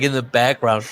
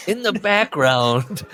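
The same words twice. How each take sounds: First: Said in the usual way. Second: "background" drawn out, high-pitched; emphatic repeat. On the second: Real, not acted. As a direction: stretch "in the background" slowly, much higher. Repeats phrase with heavy emphasis.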